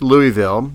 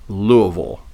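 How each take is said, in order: First: It is said with a plain non-Southern pronunciation. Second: It is said with a Southern local pronunciation. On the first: The speaker keeps the normal accent for the name. The speaker calls it right. "No, I don't think so. It's Louisville" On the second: The speaker suddenly adopts the local way of saying it. The speaker calls it wrong. "they'll go Louisville"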